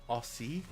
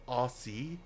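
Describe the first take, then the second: No difference in how they are said.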